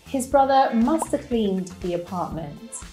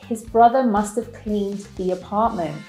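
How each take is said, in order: First: The word have is reduced to a schwa. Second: The word have is said in full.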